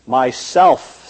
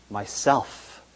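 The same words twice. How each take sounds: First: Deep, low and rumbling, as if the earth shook. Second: Myself breathed out barely audible; soft whisper. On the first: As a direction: let the word rumble slow and deep. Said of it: "very deep and low, so that the earth shook". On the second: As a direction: say Myself so softly it is hardly heard. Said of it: "whispered so softly you could hardly hear it". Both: A narrator's reading.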